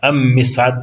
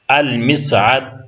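First: The l is silent and the m is doubled. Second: The l is pronounced before the m. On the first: The speaker calls it wrong. "شما ام مسعد نمیگیم" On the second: The speaker calls it right. "با لام تلفظ کردین"

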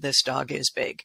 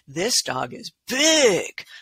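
First: It is read flatly, without excitement. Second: It is read with excited, lively energy.

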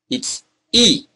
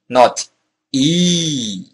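First: The vowel is held short. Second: The vowel is held long. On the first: The speaker calls it right. "It's short" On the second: The speaker calls it wrong.

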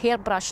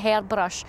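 First: It is said in a standard, non-dialect pronunciation. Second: It is said in a broad Scots pronunciation. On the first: This is the proper form a parent insisted on. The speaker calls it right. "I would say it's hairbrush" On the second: This is the local slang form a parent discouraged. The speaker calls it wrong. "not hairbrush"

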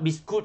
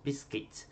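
First: The last syllable sounds like 'kut'. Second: The last syllable sounds like 'kits'. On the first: The speaker calls it wrong. "We shouldn't say biskut. Biskut tu Melayu eh" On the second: The speaker calls it right. "Bunyinya macam kids"

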